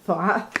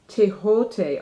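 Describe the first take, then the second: First: The name is one syllable ending in 'th'. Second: The name is two syllables ending in 't'. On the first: "I always pronounce it Thoth" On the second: "it's actually pronounced Tehote"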